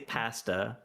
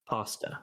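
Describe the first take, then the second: First: It is said the speaker's own Canadian way. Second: It is said the way Americans say it.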